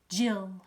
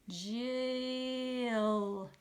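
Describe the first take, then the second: First: The word is said quickly as one. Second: Each sound is held out slowly.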